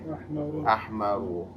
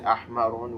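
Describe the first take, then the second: First: The word ends on a vowel, no n. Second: The word ends with an added n sound. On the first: The speaker calls it right. "We say" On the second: The speaker calls it wrong. "We never say"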